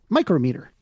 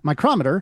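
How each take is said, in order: First: The stress is on the first syllable. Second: The stress is on the second syllable. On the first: It names a unit of length. "the unit name places the stress on the first syllable" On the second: It names a measuring device. "the name of the measuring device is stressed on the second syllable"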